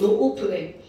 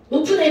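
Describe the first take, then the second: First: The first vowel is drawn out, four syllables. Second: The first vowel is short, three syllables. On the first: The speaker calls it right. "노오프네야" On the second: The speaker calls it wrong. "노프네 이렇게 하면 안 돼"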